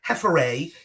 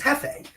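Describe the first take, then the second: First: The R sound is pronounced in the name. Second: The R sound is left out of the name. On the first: The speaker calls it wrong. "It's not Hefere" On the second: The speaker calls it right. "telling you that the R is freaking silent"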